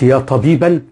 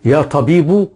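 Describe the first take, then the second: First: The noun ends with an -an sound. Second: The noun ends with a -u sound. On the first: Any doctor at all is being called. "غير مقصودة" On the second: One particular doctor is being called. "مقصودة"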